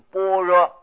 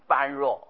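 First: The first syllable sounds like bo. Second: The first syllable sounds like ban. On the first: The speaker calls it right. "这里不念般啊，要念成波" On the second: The speaker calls it wrong. "不知道的人就会按照那个原字读，就是一般的般，弱的弱"

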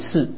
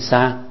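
First: The syllable is pronounced shi. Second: The syllable is pronounced sha. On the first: The speaker calls it right. "是念四" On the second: The speaker calls it wrong. "不能念杀啊"

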